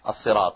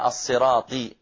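First: The final consonant carries an a-vowel. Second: The final consonant carries an i-vowel. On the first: The speaker calls it right. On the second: The speaker calls it wrong.

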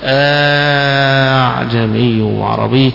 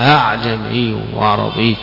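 First: The second hamza becomes a long drawn-out vowel. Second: The second hamza is softened, between hamza and alif. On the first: "بالمد فيها" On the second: "فالهمزة الثانية مسهلة، وإنما هي بين الهمزة والألف"

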